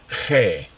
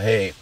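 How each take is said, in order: First: The word is said with a breathy puff of air. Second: The word is said plainly without extra breath. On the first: The speaker calls it right. "It comes with a little air. You have to say He" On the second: The speaker calls it wrong. "it's not hay like a bale of hay"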